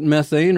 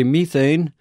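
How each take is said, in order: First: Said in the usual way. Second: "methane" with a long ee, MEE-thane; British pronunciation. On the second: Shown as a demonstration. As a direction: say "methane" the British way, first syllable like "me". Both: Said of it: "or as the British would say".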